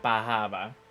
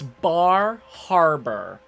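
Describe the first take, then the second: First: The r sounds are dropped, Boston style. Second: The r sounds are clearly pronounced. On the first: "anyone who's Bostony pronounces it Bahaba" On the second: "for it's Bar Harbor"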